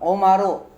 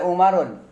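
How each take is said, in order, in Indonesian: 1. Kata ini berakhir dengan vokal, tidak ada n. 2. Kata ini berakhir dengan bunyi n tambahan.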